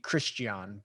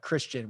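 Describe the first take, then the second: First: The name is said with Afrikaans pronunciation. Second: The name is said with English pronunciation.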